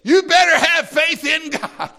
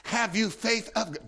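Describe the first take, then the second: First: "You better have faith in God" thrown out high and loud; a high, loud challenge to the listeners; commanding challenge. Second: "Have you faith of God?" asked softly with a questioning tune; soft, inquiring question to the listeners; gentle question. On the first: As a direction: throw it down as a demand. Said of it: "I'm throwing down a challenge, I'm giving you a command". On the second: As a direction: ask it quietly rather than order. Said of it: "it's in a question form in the Greek". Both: Shown as a demonstration.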